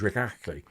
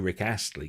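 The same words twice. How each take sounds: First: The name is pronounced indistinctly, with mangled consonants. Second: The name is pronounced clearly and normally. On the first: "because it was [name] because he only had he miss, missing the front half of his tongue" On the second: "He could never say [name]"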